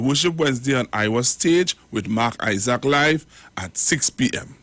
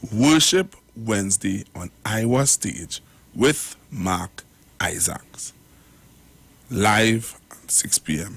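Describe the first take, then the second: First: The phrase is read quickly. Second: The phrase is read slowly. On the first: The speaker calls it wrong. "I read it too fast" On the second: The speaker calls it right. "I'll slow it down"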